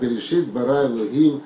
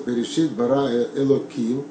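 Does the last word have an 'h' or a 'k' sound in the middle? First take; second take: h; k. First: The last word is said with an 'h' sound. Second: The last word is said with a 'k' sound. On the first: The divine name is said in full, as written. "Я могу произнести более полностью" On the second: The divine name is altered, as in everyday speech. "я произношу Элоким"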